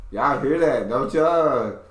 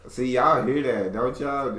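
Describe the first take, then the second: First: Louder, higher hammed-up country accent; mocking country accent. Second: Higher, lightly mocked country accent; mocking country accent. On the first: Repeating the tease to viewers, exaggerated country accent. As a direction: lay the mock country twang on loud. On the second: Teasing partner to the viewers, mock country accent. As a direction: tease with a bit of her country accent. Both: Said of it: "when I start mocking her accent".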